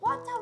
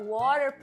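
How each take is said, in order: First: It is said imitating the Chinese woman's accent. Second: It is said slowly in the speaker's own accent.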